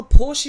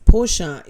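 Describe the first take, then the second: First: Porsche as common "porsh"; one-syllable Porsche. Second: Porsche as careful "POR-shuh"; two-syllable Porsche. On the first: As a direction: drop the final vowel of Porsche. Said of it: "Porsche is the proper way". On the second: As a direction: give Porsche its final "uh". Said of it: "is the proper way". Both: Shown as a demonstration.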